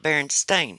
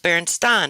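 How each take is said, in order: First: The last syllable rhymes with 'rain'. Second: The last syllable rhymes with 'fine'. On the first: The speaker calls it wrong. "and not Berenstain" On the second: The speaker calls it right. "that's how I decided how I was going to pronounce"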